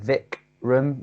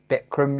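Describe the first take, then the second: First: The name begins with a V sound. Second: The name begins with a B sound. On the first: "you're supposed to pronounce it Vikram yoga" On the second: "that V is a B and it's Bikram yoga"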